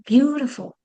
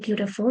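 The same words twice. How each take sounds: First: The stress falls on the first syllable. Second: The stress falls on a later syllable. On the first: The speaker calls it right. "you have to say" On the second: The speaker calls it wrong. "You cannot say"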